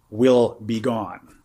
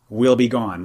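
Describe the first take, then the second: First: Very slow "will be gone"; slow emphasis. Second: Said in the usual way. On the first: Shown as a demonstration. Teacher driving home the loss of self, slowly. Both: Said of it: "let me underline the word".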